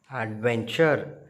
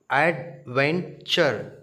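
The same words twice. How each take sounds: First: Said in the usual way. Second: Adventure split slowly into ad-ven-ture; syllable by syllable. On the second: Shown as a demonstration. Teacher sounding out syllables for children, slowly. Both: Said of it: "three syllables".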